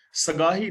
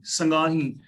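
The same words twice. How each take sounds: First: ਸਗਾਹੀ opening on plain "sa"; wrong reading. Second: ਸੰਗਾਹੀ opening on nasal "sang"; ਸੰਗਾਹੀ as "sang-gaa-hee"; correct reading. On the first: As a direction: say ਸਗਾਹੀ without the nasal "ng". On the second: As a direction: say ਸੰਗਾਹੀ with "ng" in the first syllable. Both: Shown as a demonstration. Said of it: "ਸਗਾਹੀ ਨਹੀਂ".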